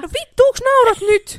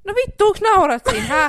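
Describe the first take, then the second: First: High, loud fake indignation; hammed-up indignant shout; mock outrage. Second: High, loud fake indignation; No vittu, onks naurat siinä shouted in mock anger; mock outrage. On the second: Mock outrage at laughing friend. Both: Real, not acted. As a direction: pretend to be offended.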